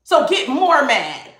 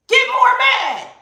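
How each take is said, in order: First: Said in the usual way. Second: Much higher, slow, sing-song mocking taunt. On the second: Shown as a demonstration. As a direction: egg them on in a high teasing voice, slowly. Taunting the angry ones.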